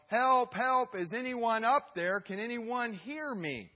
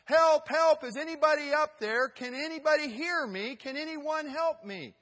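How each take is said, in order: First: High, loud call for help that fades at the end. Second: Very high, very loud cry for help that fades toward the end; louder desperate yell. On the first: Calling up the cliff for help, high and loud. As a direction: hiker stranded on a cliff shouts upward. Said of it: "he would yell". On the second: Stranded hiker screams up the cliff for rescue, frantic. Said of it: "then he said". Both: Acted.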